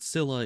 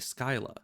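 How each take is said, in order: First: The name starts with a plain S sound. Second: The name starts with an SK sound. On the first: This is how the game says it. "they pronounce it Scylla in the game" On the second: This is the Greek-based pronunciation. "then Scylla would actually be Skyla"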